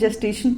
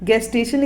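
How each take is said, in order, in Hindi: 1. यह शब्द j ध्वनि से शुरू होता है। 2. यह शब्द हार्ड g ध्वनि से शुरू होता है।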